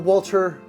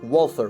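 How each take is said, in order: First: The middle consonant is a plain t sound. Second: The middle consonant is a th sound. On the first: The speaker calls it wrong. "I keep saying Walter" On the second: The speaker calls it right. "but I know it's Walther"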